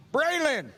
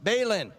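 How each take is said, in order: First: Braylon said higher and confidently, pleased to get it; name finally right. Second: Balin said as an uncertain wrong guess at the name; misheard name guess. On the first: Chaplain finally gets the kid's name right, pleased. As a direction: land Braylon with relief. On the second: Handing out ice cream, chaplain guesses the kid's name, tentative. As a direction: try Balin, not sure it's right. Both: Real, not acted. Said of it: "Third time's a charm".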